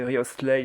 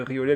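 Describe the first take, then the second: First: The name is said in its full, careful form. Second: The name is said in a casual, simplified form. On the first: "si vous préférez vraiment le prononcer euh, correctement" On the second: "je dis Riolet"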